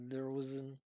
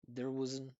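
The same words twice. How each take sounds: The two takes are said the same way.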